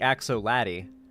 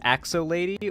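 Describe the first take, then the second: First: The second part sounds like 'laddie'. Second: The second part sounds like 'lady'. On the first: The speaker calls it right. "it's obviously Axo Laddie" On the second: The speaker calls it wrong. "Thank you for not pronouncing it as Axo Lady"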